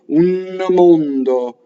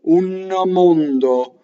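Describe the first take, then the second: No difference in how they are said.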